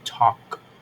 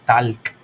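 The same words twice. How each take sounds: First: The L sound is silent in the word. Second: The L sound is pronounced in the word. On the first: The speaker calls it right. "la L no suena, digo talk" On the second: The speaker calls it wrong. "no decimos talk"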